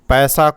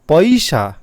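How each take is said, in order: First: The vowel is said the standard Hindi way. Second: The vowel is said the Tamil-speaker way. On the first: "Hindi की लिपि" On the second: "ऐसा बोला जाता है"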